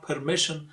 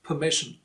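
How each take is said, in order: First: "permission" with an audible R in per; R pronounced. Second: "permission" said puh-MISH-un; silent R. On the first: Teacher shows the mistake, "permission" with R sounded. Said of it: "R is silent here". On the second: Teacher corrects learners, "permission" with silent R. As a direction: drop the R in "permission". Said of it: "R is silent". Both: Shown as a demonstration.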